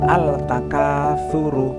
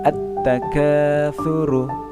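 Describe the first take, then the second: First: An "l" sound is heard before the "t". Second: The "l" blends into a doubled "t". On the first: The speaker calls it wrong. "aslinya membacanya seperti ini" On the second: The speaker calls it right. "alif lamnya ini melebur ke huruf ta"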